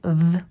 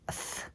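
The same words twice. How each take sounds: First: The th sound is made with voice. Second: The th sound is made without voice. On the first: "Those are voiced" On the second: "it's unvoiced"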